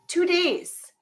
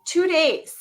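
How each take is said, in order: First: "Two days." higher and incredulous; exasperated repeat. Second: TWO punched higher in "Two days."; emphatic answer. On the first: Mother ranting to her co-host about a lost slipper, exasperated. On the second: Mother ranting to her co-host about a lost slipper, emphatic. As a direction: land "Two days." hard on TWO, falling. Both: Real, not acted.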